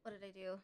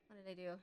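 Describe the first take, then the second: No difference in how they are said.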